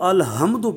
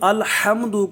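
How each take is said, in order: First: The h is a light breathy sound from low throat. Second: The h is a tense sound from mid-throat. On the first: The speaker calls it wrong. "अल-हम्दु पढ़ेगा तो हा की जगह पर दूसरी हा अदा होगी" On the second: The speaker calls it right. "अगर कोई अल-हम्दु को"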